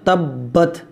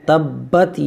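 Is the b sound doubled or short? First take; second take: doubled; doubled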